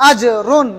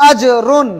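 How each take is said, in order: No difference in how they are said.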